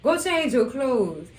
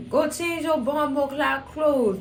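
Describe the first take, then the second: First: Said in the usual way. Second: Put-on slow, higher Jamaican accent; imitated Jamaican scolding, drawn out. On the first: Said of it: "when she put on that Jamaican accent". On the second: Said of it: "she put on that Jamaican accent".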